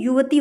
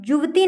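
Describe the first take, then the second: First: Said in the usual way. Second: युवती opening on j, as "juvti"; wrong pronunciation. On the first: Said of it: "युवती होता है". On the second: Shown as a demonstration. Teacher shows the common wrong form, said "juvti". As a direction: swap the y of युवती for j. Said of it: "युवती नहीं".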